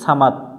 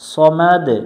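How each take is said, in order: First: The word ends in a t sound. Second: The word ends in a bouncing d sound. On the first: The speaker calls it wrong. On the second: The speaker calls it right.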